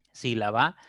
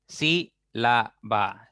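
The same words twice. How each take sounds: First: Said in the usual way. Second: "Sílaba" very slowly as sí - la - ba; syllable by syllable. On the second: Shown as a demonstration. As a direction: spread "Sílaba" over three separate beats, sí, la, ba. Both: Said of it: "Ya tienen tres sílabas".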